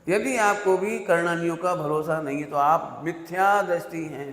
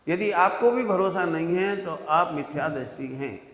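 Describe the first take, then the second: First: It is said very slowly. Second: It is said fast.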